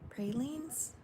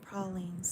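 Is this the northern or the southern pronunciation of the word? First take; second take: northern; southern. First: It is said with a northern pronunciation. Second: It is said with a southern pronunciation. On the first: This is how the speaker always says it. The speaker calls it wrong. "I always call them pra- pr- pralines" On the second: This is how someone from Louisiana says it. The speaker calls it right. "she's from Louisiana, she called them pralines"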